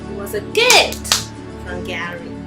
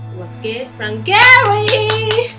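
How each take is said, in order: First: The word gift carries the main stress. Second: The word Gary carries the main stress. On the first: The point is that the letters are a gift. "She emphasized on the word gift instead of Gary" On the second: The point is who gave it. "what did she say in another way?"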